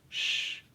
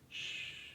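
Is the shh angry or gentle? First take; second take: angry; gentle. First: The shh is said sharply and angrily. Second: The shh is said softly and lovingly. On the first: Telling the mind to shut up. The speaker calls it wrong. "it's not shh, shut up. It's not with anger" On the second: Calmly and lovingly taking charge of the mind. The speaker calls it right. "with love, I'm looking right at you, mind, and I'm saying"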